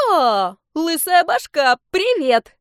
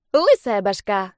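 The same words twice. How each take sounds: First: Squeaky, much higher, slow and gleeful; a playful little dragon greeting a friend; cheerful baby dragon. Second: Teasing dragon. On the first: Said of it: "весёлый голос". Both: Acted.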